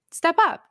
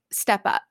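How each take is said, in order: First: A retold dare barked at Colin; mock yell. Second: Said in the usual way. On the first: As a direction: throw the challenge up, half-yelled. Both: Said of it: "she screams at Colin".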